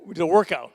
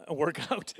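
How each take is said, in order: First: Said in the usual way. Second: "workout" stressed on OUT instead of WORK; misplaced stress. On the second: Real, not acted. Comedian fumbling a word, "workout" with stress on OUT. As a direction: say "workout" slowly, leaning on the second syllable, OUT. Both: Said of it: "put the emphasis on the wrong part of the word".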